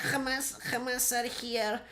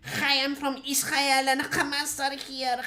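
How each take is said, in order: First: Put-on the Israeli accent repeated much softer, slow. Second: Slow, higher mock Israeli accent. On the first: Echoing his own mock line, softer Israeli accent. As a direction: drop to a soft, slow Israeli-accent echo. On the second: Mocking how Israelis sound, Israeli accent. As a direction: drawl it out in a put-on Israeli accent. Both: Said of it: "that's the Israeli accent".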